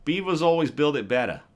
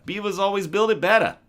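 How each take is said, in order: First: A first go at a Boston accent, a bit louder. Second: Higher, louder, all-in Boston accent; full Boston accent. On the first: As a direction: toss off the line in a Boston accent. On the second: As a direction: go big on the Boston accent, better as betta. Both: Shown as a demonstration. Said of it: "Now say it with a Boston accent".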